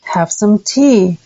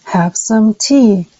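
First: Slow learner echo; careful imitation; slow repeat. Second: Slow learner echo; unhurried careful imitation; slow repeat. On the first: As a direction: repeat it slowly after the model. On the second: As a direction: echo it back slowly. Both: Shown as a demonstration. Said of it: "did you hear my voice echo".

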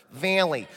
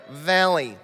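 First: Valley with a flat Midwestern vowel. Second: Valley in a Midwestern accent; Valley in a Michigan accent. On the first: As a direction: repeat Valley the Michigan way. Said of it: "every thousandth word". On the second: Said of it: "That's how they say it in the Midwest". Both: Shown as a demonstration.

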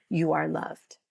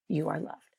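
First: Said in the usual way. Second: Much softer, hushed repeat. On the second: Real, not acted. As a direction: let it land gently, almost under breath. Repeats the blessing, second softer.

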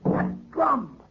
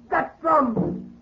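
First: High, hushed "That drum." with dawning fear; dread. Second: "That drum." cried out very high, with rising panic; "That drum." with the fear breaking loose. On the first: Groom first hearing the curse drum, hushed dread. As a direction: breathe "That drum." as the terror sets in. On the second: Groom hearing the curse drum again, panicking. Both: Acted.

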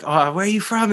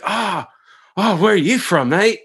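First: Eager excited greeting. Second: Put-on eager young surfer. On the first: Retold or imitated. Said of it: "and then I'd be like". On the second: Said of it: "you're like".

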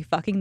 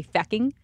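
First: Said in the usual way. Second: "fecking" with an E in place of the U; imitated Irish "fecking"; Irish-accented fecking. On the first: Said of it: "the way they say". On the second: Shown as a demonstration. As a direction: say "fecking" the Irish way, first vowel as in "deck". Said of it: "that's a terrible accent".

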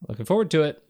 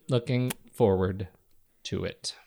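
First: Said in the usual way. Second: Slow and deliberate, sinking away at the end; slow, low repeat. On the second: Real, not acted. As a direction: draw it out, pause before "to it".

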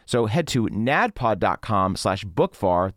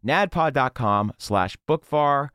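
First: Slow ad read. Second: Slow, careful URL. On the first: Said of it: "first take of URL". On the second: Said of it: "repeats URL slowly". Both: Shown as a demonstration.

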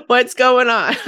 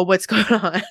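First: Louder insistent question. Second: Asked through a laugh, half joking; laughing question. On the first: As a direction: ask it again, louder and firmer. Repeat of the imagined question. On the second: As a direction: giggle while you ask. Imagined friend asking about cleaning. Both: Retold or imitated.

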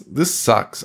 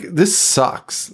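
First: Said in the usual way. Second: Drawn-out "this sucks", slowed right down; slow disgusted verdict. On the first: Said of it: "Like, this sucks". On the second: Real, not acted. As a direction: stretch "this sucks" slowly in disgust.

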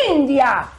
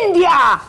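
First: Softer echo cry. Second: High, loud cry of India; dramatic cry. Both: Pretend. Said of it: "me grita".

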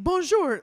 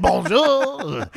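First: High sing-song Bonjour; a light French greeting voice; mock French greeting. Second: High, loud French candlestick voice; talking candlestick. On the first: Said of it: "They don't say it like". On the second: Retold or imitated. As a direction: belt it like a cartoon French candlestick. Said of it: "like the candlestick from Beauty and the Beast".

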